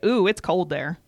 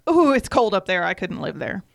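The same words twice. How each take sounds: First: Mock reaction. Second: Louder, playful "Ooh" with a shudder; mock shiver. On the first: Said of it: "Do you always get". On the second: People hearing she's from Michigan, a louder mock shiver. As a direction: ham up the cold "Ooh".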